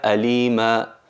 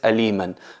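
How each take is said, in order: First: The word ends on a vowel with no n. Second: The word ends with a clear n sound. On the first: The word is the last before a stop. "si nos paramos en aliman sería alima" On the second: The word is linked to following words. "al enlazarlo con otras palabras es aliman"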